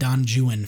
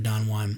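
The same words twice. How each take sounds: First: The name is pronounced with English sounds. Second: The name is pronounced with Spanish sounds. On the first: The speaker calls it wrong. "So they would say ... Don Juan" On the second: The speaker calls it right. "for Don Juan"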